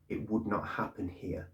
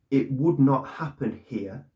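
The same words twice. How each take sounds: First: Quiet conviction. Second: "would" hit, slow, firmer and a bit louder; emphatic repeat. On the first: Retold or imitated. Vlogger quoting Ferguson to viewers, soft slow certainty. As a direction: say it quietly like a settled fact. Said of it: "he said it with absolute conviction". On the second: Real, not acted. Vlogger repeating Ferguson's line to viewers, slow and emphatic. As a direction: hammer each word home slowly. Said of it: "with absolute conviction".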